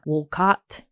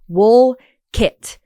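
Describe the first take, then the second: First: The name ends with a full 'cott' sound. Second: The name ends with a short 'kit' sound. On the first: The speaker calls it wrong. "It's not Wolcott" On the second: The speaker calls it right. "W O O L K I T"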